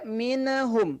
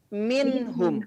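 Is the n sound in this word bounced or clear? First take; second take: bounced; clear. First: The n sound bounces before the h. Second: The n sound is clear and steady. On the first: The speaker calls it wrong. "tidak minhum" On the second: The speaker calls it right. "tapi minhum... dibaca jelas"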